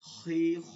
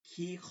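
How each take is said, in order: First: The syllables are said with a heavy sound. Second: The syllables are said with a light sound. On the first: The speaker calls it right. "মোটা মোটা" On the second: The speaker calls it wrong. "এটা ভুল হয়েছে"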